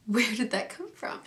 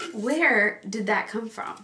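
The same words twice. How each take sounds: First: Soft puzzled aside; quiet. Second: Slower, drawn-out disbelief; slow puzzled repeat. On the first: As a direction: mutter it in disbelief. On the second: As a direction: stretch it out, baffled. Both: Real, not acted.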